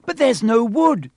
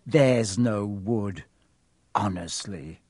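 First: High loud panicked cry; girl panicking over the fire. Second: Lower, slow mocking echo; mocking Hermione. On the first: Acted. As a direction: cry out in panic, wringing hands. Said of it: "Hermione cried". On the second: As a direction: mimic her panic scornfully. Ron mocks Hermione's panic.

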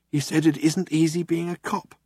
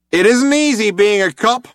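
First: Lightly voiced, flat retelling of the cop's line; Zaphod repeating. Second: Loud, high, hailer-blasted line; cop on a loud hailer. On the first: Zaphod relaying the cop's words to Ford, dry. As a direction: pass the line on, deadpan. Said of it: "said Zaphod". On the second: Cop answering through the loud hailer, loud. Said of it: "a voice replied". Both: A narrator's reading.

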